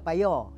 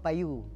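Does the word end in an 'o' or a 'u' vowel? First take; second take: o; u. First: The word ends in an o vowel. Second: The word ends in a u vowel. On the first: This is the Pekan Lenggong dialect form. "Kita payo" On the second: This is the Temelung dialect form. "dia mah payu kan"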